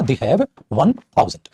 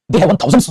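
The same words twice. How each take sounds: First: थाउजेंड said slowly, ending on "d" without "s"; slow, spaced-out थाउजेंड with no "s"; no plural S. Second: थाउजेंड्स ending in an audible "s" sound; plural S on थाउजेंड्स. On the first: Teacher dictating the correct form, slow थाउजेंड without "s". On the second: Teacher showing students the wrong plural, थाउजेंड्स with final "s". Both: Shown as a demonstration. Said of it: "नहीं बेटा, मैं क्या लिखूंगा".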